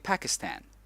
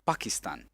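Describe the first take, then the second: First: Pronounced the way Americans say it. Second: Pronounced the way it is said in his homeland. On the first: "in America you say Pakistan" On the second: "where I come from, I say Pakistan"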